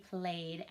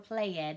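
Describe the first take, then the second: First: The ending is a d sound. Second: The ending is not a d sound. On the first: The speaker calls it right. "that ed in played makes the d sound" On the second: The speaker calls it wrong. "not played"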